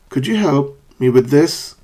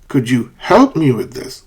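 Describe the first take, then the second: First: The pitch falls and then rises at the end. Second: The pitch does not fall and then rise. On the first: The speaker calls it right. "Fall rise" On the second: The speaker calls it wrong. "and not, ... That would be wrong"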